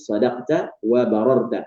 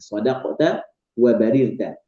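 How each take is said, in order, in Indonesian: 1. Vokal setelah R adalah 'a'. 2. Vokal setelah R adalah 'i'. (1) "meriwayatkan dengan fathah ra" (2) "baca dengan kasrah ra"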